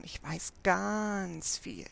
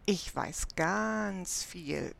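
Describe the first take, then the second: First: Boasting. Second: Slow, drawn-out bragging; smug doll showing off; boasting. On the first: Doll repeats her boast. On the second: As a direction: brag about it, savouring every word. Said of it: "prahlt die knapp zwanzig". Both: A narrator's reading.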